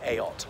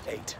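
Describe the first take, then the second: First: The word is said with two syllables. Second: The word is said with one syllable. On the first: The speaker calls it wrong. "some people mispronouncing" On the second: The speaker calls it right. "but it's eight"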